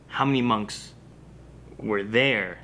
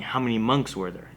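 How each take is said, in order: First: "there" set apart after a pause; pause, then land on "there" as a place; measured question with weight on "there"; stress on THERE. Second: "monks" stressed, "were there" run on unstressed; one unbroken question, "there" left light. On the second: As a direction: ask for a count, leaning on "monks". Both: Retold or imitated. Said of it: "As in, like, last episode, how many monks were there total?".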